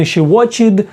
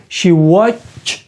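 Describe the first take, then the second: First: "watched" wrongly said in two syllables, watch-id; wrong ending ID. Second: "watched" as watch, then a separate t; correct ending T. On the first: Teacher warning learners off a mistake, "watched" as watch-id. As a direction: add an extra id syllable to "watched". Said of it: "Не she watched". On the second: Teacher correcting the ending for learners, "watched" as watch-t. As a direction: set the final t of "watched" apart, drawn out. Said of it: "а закінчення «ти». She watched". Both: Shown as a demonstration.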